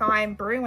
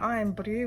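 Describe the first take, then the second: First: It is said in the speaker's plain accent. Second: It is said in a Scottish accent. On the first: The speaker calls it wrong. "You almost can't say it like Iron Brew anymore" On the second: The speaker calls it right. "with a Scottish accent"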